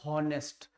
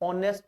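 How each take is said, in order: First: The word starts with an audible h sound. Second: The word starts with a vowel, no h. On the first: The speaker calls it wrong. "Not हॉनेस्ट" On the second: The speaker calls it right. "ऑनेस्ट बोलते हैं"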